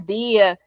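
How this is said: It is said in the Cariri accent.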